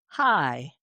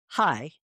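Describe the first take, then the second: First: "Hi." stretched into two musical syllables; Ozark drawled hi. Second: Said in the usual way. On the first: Shown as a demonstration. Explaining Ozark speech to a friend, a lilting drawled "Hi.". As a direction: sing "Hi." with an Ozark lilt, two beats. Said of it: "We say". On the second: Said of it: "we don't just say".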